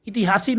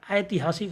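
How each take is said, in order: First: ऐतिहासिक begun with short "i", as "itihasik"; wrong first vowel. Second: ऐतिहासिक begun with a full "ai"; stressed opening diphthong. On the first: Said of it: "ऐतिहासिक नहीं होता". (ऐतिहासिक को इतिहासिक जैसा) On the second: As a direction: open ऐतिहासिक on a clear "ai". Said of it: "इस पर जोर देंगे". (ऐतिहासिक में ऐ पर ज़ोर) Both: Shown as a demonstration.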